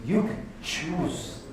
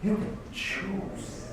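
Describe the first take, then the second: First: You can choose said very slowly, each word weighted; slow, deliberate emphasis on You; slow emphatic. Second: You can choose said again very slowly and quieter; hushed, drawn-out echo of You can choose; soft slow repeat. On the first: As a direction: lean on You and draw it out. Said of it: "repeated for emphasis". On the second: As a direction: drop the voice and linger on You. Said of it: "repeated softer". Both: Shown as a demonstration.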